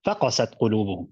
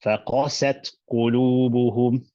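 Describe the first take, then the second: First: فَقَسَتْ قُلُوبُهُمْ rushed, every syllable the same weight; فَقَسَتْ قُلُوبُهُمْ without nabr; no nabr, equal weight. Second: فَقَسَتْ قُلُوبُهُمْ with the stress on فَقَسَتْ, run on quickly; فَقَسَتْ قُلُوبُهُمْ with nabr; correct reading with nabr. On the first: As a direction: flatten فَقَسَتْ, no stress on any syllable. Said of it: "if I do no nabr and I give everything an equal portion". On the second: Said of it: "You read it as". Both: Shown as a demonstration.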